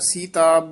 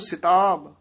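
First: The first vowel is a long ee sound. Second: The first vowel is a short i sound. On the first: The speaker calls it wrong. "ਸੀਤਾਬ ਬਿਹਾਰੀ ਨੀ ਬੋਲਣੀ" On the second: The speaker calls it right. "ਸਿਤਾਬ ਸਿਹਾਰੀ ਨਾਲ ਉਚਾਰਨ ਕਰਨਾ"

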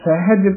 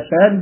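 First: The h sound in the middle is clear. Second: The h sound in the middle is faint. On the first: The speaker calls it right. "ਹਾਹਾ ਜਿਹੜਾ ਹੈ ਉਹ ਉਚਾਰਨ ਸਹੀ ਕਰਨਾ" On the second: The speaker calls it wrong. "ਕਈ ਵਾਰ ਅਸੀਂ ਹਾਹਾ ਜਿਹੜਾ ਹੈ ਉਹ ਫਿੱਕਾ ਜਿਹਾ ਪੈ ਜਾਂਦਾ"

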